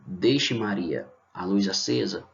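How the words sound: There is a pause after Maria.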